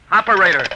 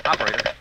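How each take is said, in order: First: Frantic man shouting into the dead phone; louder urgent call. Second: Said in the usual way. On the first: Acted. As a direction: shout it higher, jiggling a dead line. Calling operator after line dies.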